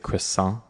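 It is said with a Canadian English pronunciation. "how I think probably most Canadians would say croissant"

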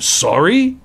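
It is said in a shocked, indignant tone. The listener cannot believe how rude the other person is. "if I thought you were being rude or disrespectful, I would say"

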